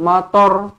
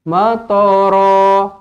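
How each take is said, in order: First: The word ends in a consonant. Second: The word ends in a lengthened vowel. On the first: The speaker calls it wrong. "tak boleh" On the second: The speaker calls it right. "dibaca dengan panjangnya dua harakat"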